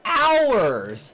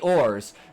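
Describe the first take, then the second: First: It rhymes with hours. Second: It rhymes with yours. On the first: The speaker calls it right. "No, wrong! It's ours!" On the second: The speaker calls it wrong. "if that's yours, then that would be ours"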